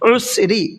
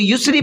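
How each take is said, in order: First: The word begins with a throat 'ain' sound. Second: The word begins with a 'y' sound. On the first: The speaker calls it right. "आइन के साथ है उसरी" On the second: The speaker calls it wrong. "अक्सर यहाँ पर गलती ये करते हैं लोग"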